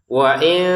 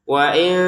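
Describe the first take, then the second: The two takes are said the same way.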